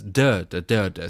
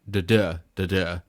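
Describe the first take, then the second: First: Each pair of beats goes strong then weak. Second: Each pair of beats goes weak then strong. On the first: This is the trochaic rhythm. "Trochaic is" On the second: This is the iambic rhythm. "I ams tend to go"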